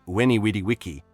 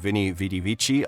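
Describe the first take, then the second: First: Each word begins with a W sound. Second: Each word begins with a V sound. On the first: This is how Caesar likely said it in classical Latin. "it probably would have been" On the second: This is the familiar later pronunciation. "Julius Caesar's famous saying"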